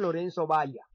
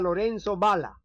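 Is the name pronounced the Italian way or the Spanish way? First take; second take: Spanish; Italian. First: The name is pronounced the Spanish way. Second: The name is pronounced the Italian way.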